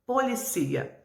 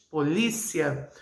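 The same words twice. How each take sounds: First: Policia stressed on the ci, po-li-CÍ-a; pronúncia espanhola. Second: Polícia with stress on the second syllable, li, said slowly; pronúncia portuguesa. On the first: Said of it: "mas em espanhol". (policia em espanhol, tônica no ci) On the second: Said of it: "Em português". (polícia em português, tônica no li) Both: Shown as a demonstration.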